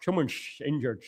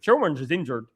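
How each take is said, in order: First: Soft, low mock-Dutch with slushy s; attempted Dutch accent. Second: Lower, tentative Bristol twang; attempted Bristol accent. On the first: Testing a player's name on viewers, mock Dutch accent. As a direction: try a slurred, hushed Dutch accent. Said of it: "or is it Dutch? Dutch". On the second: Testing a player's name on viewers, rough Bristol accent. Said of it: "Is it a Bristol accent?". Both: Shown as a demonstration.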